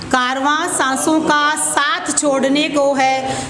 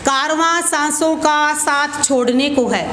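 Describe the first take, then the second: No difference in how they are said.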